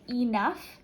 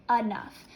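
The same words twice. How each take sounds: First: Enough with a full ee sound, ee-nuff; spelling pronunciation. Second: Enough with a schwa, uh-nuff; everyday pronunciation. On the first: Teacher showing students an easier-to-spell ee-nuff. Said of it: "it's easier to spell if we say enough". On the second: Teacher showing students the usual uh-nuff. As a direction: say enough as uh-NUFF, the way people really talk. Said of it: "most of the time we actually say enough". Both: Shown as a demonstration.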